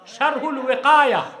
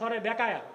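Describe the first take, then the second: First: The second word begins with a W sound. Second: The second word begins with a B sound. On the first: The speaker calls it right. "আর সরে বেকায়া কিতাব নাই তো" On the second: The speaker calls it wrong. "এটারে বলে সরে বেকায়া"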